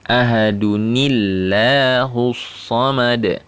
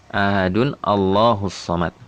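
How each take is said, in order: First: Ahadun runs straight into 'nillahus' without 'a'. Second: A full 'a' sound begins the word Allah. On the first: The speaker calls it right. "seharusnya atau seyogyanya dibaca seperti ini" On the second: The speaker calls it wrong. "dia akan bacanya kemungkinan besar kayak begini"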